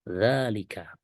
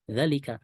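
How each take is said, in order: First: The first vowel is held long. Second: The first vowel is cut short. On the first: The speaker calls it right. "Sekali lagi bacanya dzalika" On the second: The speaker calls it wrong. "bukan dzalika"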